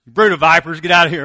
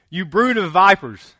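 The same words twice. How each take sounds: First: Loud, furious yell at churchgoers; mock angry shout. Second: Loud, booming scripture rebuke; forceful rebuke. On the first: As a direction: shout it like throwing people out of church. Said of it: "Somebody comes to church". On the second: Retold or imitated. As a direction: read it as John's fierce public rebuke. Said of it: "We don't talk like that anymore".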